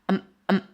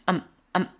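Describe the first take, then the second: Both takes have the same delivery.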